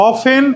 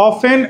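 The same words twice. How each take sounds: Both takes have the same delivery.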